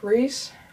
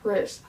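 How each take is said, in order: First: The name has a long 'ee' vowel. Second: The name has a short 'i' vowel. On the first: The speaker calls it right. "I think it's pronounced Reese" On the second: The speaker calls it wrong. "I pronounce it Riz"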